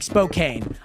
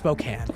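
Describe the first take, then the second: First: It is said the way outsiders say it. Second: It is said the way locals say it. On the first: The speaker calls it wrong. "If I didn't tell you how to say Spokane, you guys would be like" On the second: The speaker calls it right. "it's just pronounced Spokane"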